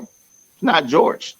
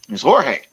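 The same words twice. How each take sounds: First: "not" drawn out and stressed, slow. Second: "Jorge" said hor-hey, Spanish way. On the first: Correcting a friend's name, stresses not slowly. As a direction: lean hard on "not". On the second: Correcting a friend's name, says Jorge the Spanish way. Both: Shown as a demonstration.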